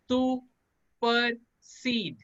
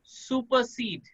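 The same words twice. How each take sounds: First: सुपरसीड in three slow, separated syllables. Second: Said in the usual way. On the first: Shown as a demonstration. Teacher drilling the spelling with students, syllable by syllable. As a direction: break सुपरसीड into su, per, seed with clear gaps. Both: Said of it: "three syllable में रखते हैं".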